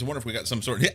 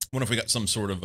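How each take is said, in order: First: Talking through a laugh; words breaking into laughter. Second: Said in the usual way. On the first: Real, not acted. Laughs mid-sentence, then restarts.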